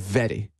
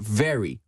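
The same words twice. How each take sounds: First: The r is not a usual English r. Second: The r is a usual English r. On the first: This is how the queen says it. "Elle fait very" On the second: This is how an ordinary British speaker says it. "Un anglais british normal, il va le prononcer very"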